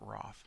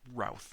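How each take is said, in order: First: The vowel is 'aw', rhyming with cloth. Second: The vowel is 'ow', rhyming with south. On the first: The speaker calls it wrong. "not Roth" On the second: The speaker calls it right. "It says to pronounce it like South"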